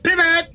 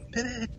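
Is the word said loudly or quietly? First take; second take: loudly; quietly. First: The word is shouted loudly. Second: The word is said quietly. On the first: "I want to scream it out in the middle of the office" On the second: "I have to say it quietly"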